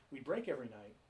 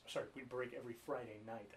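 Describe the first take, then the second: First: Said in the usual way. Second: Quick correction with "Friday" as the prominent word; stress on Friday. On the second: Real, not acted. Correcting his Renaissance fair story to the host, quick stress on "Friday". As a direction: fix the slip by leaning on "Friday".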